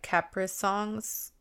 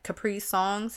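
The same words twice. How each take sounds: First: Capri is pronounced as in Capricorn. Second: Capri is pronounced as in Capri Sun. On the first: "or like Capricorn" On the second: "like Capri Sun"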